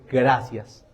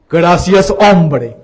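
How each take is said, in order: First: Low, soft retold reply; subdued thanks. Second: Loud, hearty mimicry of a catchphrase; emphatic mimicked thanks. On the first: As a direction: say thanks quietly, as if recounting it. First, restrained take of his thanks. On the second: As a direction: belt out the thanks as an imitation. Repeats thanks in the priest's catchphrase style.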